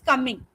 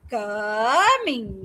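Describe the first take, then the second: First: The word is said at normal length. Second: The word is drawn out and stretched.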